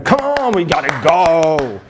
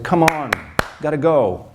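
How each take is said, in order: First: It is said at a higher pitch. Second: It is said at a lower pitch.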